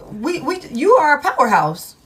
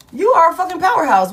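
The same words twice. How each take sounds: First: Said in the usual way. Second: Louder and faster, punching "fucking powerhouse"; emphatic hype. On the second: Real, not acted. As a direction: hype them up, hit "You are a fucking powerhouse" hard and quick. Repeats louder with added curse.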